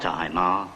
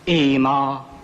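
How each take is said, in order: First: The syllable begins with an 'i' vowel. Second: The syllable begins with an 'e' vowel. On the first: The speaker calls it wrong. "not Imar" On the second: The speaker calls it right. "Emar, not Imar"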